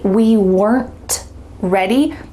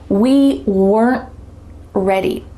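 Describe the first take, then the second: First: The T in weren't is clearly released. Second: The T in weren't is cut off silently. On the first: "If I said it clearly" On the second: "My tongue is stopped at the top of my mouth. It's trying to make the T sound, but no air comes out"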